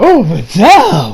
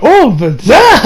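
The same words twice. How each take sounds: First: Dreamy sigh. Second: "Oh, Videl" higher and slow with a rising lilt; swooning. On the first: Reviewer sighing over Videl, slow dreamy fall. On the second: Reviewer gushing over Videl, high slow rising swoon. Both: Retold or imitated.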